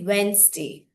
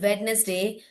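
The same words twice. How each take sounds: First: The middle d is left silent. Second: The middle d is sounded out. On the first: The speaker calls it right. "you should say Wednesday" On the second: The speaker calls it wrong. "don't call it Wednesday"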